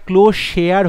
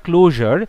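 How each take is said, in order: First: ক্লোজ শেয়ার as two words, "close share"; misspelling read out. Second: ক্লোজার as one word, "clo-jar"; correct word. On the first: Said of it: "আর এটা ক্লোজ শেয়ার হয়ে গেছে". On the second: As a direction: say ক্লোজার with a j sound in the middle, no "share". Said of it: "কথাটা ক্লোজার". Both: Shown as a demonstration.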